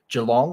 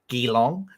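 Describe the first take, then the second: First: It is said in an Australian accent. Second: It is said in an American accent.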